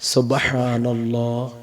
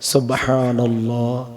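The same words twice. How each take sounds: Both takes have the same delivery.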